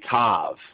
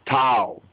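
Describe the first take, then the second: First: The word ends in a V sound. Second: The word ends in a vowel sound. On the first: The speaker calls it wrong. "They'll say Tav" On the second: The speaker calls it right. "but really"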